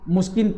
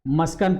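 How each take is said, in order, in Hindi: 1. अक्षरों में पहले u, फिर i स्वर हैं। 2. दोनों अक्षरों में a स्वर है। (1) "मुस्किन पढ़ूं" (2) "मस्कन पढ़ूं"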